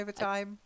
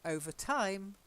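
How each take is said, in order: First: It is said as one word, stressed at the start. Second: It is said as two words, stressed on time. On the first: Extra paid hours of work. "overtime is when you work longer hours" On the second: After a long while. "it just means after a while"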